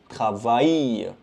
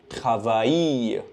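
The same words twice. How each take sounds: The two takes are said the same way.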